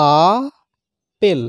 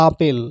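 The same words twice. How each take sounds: First: "আ", long pause, then "পেল"; two pushes, "আ ... পেল"; split into syllables. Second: Said in the usual way. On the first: Shown as a demonstration. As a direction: separate "আ" and "পেল" into two breaths. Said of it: "এক নিঃশ্বাসে হচ্ছে আ". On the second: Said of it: "আপেলটাকে যদি দল বিশ্লেষণ করা হয়".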